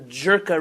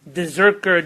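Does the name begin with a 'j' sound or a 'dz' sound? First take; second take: j; dz. First: The name begins with a 'j' sound. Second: The name begins with a 'dz' sound. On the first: The speaker calls it wrong. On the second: The speaker calls it right.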